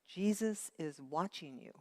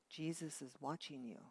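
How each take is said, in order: First: It is said in a louder voice. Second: It is said in a soft, quiet voice.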